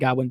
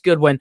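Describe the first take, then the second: First: The first syllable sounds like 'god'. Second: The first syllable sounds like 'good'. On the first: The speaker calls it wrong. "I always say Godwin" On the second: The speaker calls it right. "the proper way"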